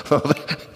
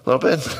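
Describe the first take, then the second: First: Breathy laughing repeat of the question. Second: Said in the usual way. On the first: Real, not acted. Pastor laughing at the parents in the room. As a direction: laugh it out under your breath. Teasing parents about teenage boys.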